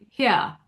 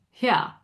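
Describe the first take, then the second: First: A very posh British accent, almost 'hyah'. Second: A very posh British accent, almost 'hyah'.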